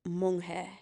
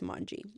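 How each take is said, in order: First: The name is said with a Spanish pronunciation. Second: The name is said with an English pronunciation. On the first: "in Spanish and Espanol is monje" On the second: "in English it's Manji"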